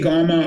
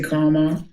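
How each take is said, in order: First: The word begins with a G-like sound. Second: The word begins with a K sound. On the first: This is how the other person says it. "You say gamma" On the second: This is how the speaker says it. "I say karma"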